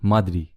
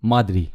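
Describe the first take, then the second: First: The two words are merged into one. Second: The same.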